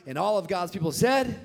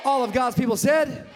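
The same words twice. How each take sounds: First: Said in the usual way. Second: Much louder, higher shout to the church; shouted call. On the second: Real, not acted. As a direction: demand the answer, shouting it out.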